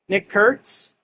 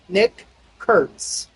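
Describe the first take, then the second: First: The name is said quickly, run together. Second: The name is said slowly and carefully.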